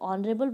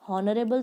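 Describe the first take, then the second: First: The word begins with a vowel, no h. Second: The word begins with an audible h sound. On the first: The speaker calls it right. "ऑनरेबल बोलते हैं ना, ... एच इसमें silent है" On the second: The speaker calls it wrong. "हॉनरेबल तो नहीं बोलते"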